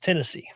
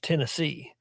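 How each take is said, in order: First: The stress is on the first syllable. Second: The stress is on the last syllable.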